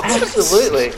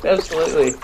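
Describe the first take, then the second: First: High, bright Absolutely; hammed-up eager yes; eager exclamation. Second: Said in the usual way. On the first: Exaggerated eager reply.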